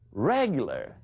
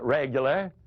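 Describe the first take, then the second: First: It is said with shaming, disbelieving inflection. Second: It is said plainly, as a simple answer.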